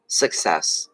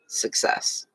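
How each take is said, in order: First: Said in the usual way. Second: Success whispered softly, no voice. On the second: Shown as a demonstration. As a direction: breathe the word Success as a whisper. Repeats keyword, then whispers it.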